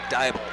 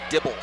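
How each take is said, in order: First: The name is said unlike the word dibble. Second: The name is said like the word dibble. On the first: The speaker calls it right. "It is indeed Dybel" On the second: The speaker calls it wrong. "do not say Dibble"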